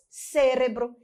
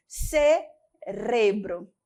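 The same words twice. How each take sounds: First: "cérebro" stressed on the first syllable; Portuguese stress on CÉ. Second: "Cerebro" slowly split, ce-RE-bro; pause, then hit RE in "Cerebro"; Spanish stress on RE. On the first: Teacher gives the familiar Portuguese, stressing CÉ in "cérebro". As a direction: hit CÉ in "cérebro". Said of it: "No português". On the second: Teacher shows the odd Spanish word, stressing RE in slow "Cerebro". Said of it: "No espanhol". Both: Shown as a demonstration.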